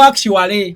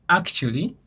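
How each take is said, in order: First: "actually" as "ak-chu-wa-lee"; A sounded. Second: "Actually" as "ak-chu-lee"; reduced ending on "Actually", tune rising; silent A. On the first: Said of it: "kuba silent letter eriwo". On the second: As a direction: drop the A sound before the L in "Actually". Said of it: "Accent bwetyo bw'ejja". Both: Shown as a demonstration.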